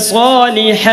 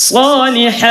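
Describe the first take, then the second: The two takes are said the same way.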